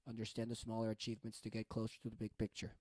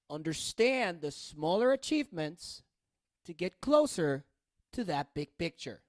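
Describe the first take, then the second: First: It is read flat and even, like a robot. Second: It is read with lively, varied intonation and rhythm. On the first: The speaker calls it wrong. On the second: The speaker calls it right.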